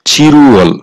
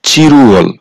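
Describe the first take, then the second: First: The parts are linked with an R sound. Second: The same.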